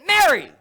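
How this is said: It sounds stern and sharp.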